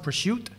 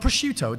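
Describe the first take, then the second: First: The final vowel sound is dropped. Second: The final vowel sound is pronounced. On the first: It is the Italian-American way of saying it. "they drop the O off foods" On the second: It is the usual way of saying it. "Not prosciutto"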